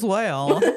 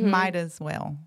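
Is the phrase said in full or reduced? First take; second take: reduced; full. First: The phrase is squashed into two syllables. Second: Each word of the phrase is said clearly. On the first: The speaker calls it wrong. "she was pronouncing it Moswell" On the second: The speaker calls it right. "It's might as well"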